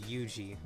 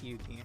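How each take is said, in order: First: The middle consonant is a soft j sound. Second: The middle consonant is a hard g sound. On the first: The speaker calls it wrong. "I keep wanting to call it, pronounce it Yuji" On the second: The speaker calls it right. "but no, it's Yugi"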